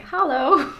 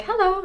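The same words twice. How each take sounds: First: "Hallo" said the German way, open a like in father, no e. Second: Bright high hello, a step up; high, sing-song "Hello" from the cashier; cashier's hello. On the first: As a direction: say "Hallo" as a German greeting, khah-loh. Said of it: "and I'm like". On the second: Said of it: "The cashier would be like". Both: Retold or imitated.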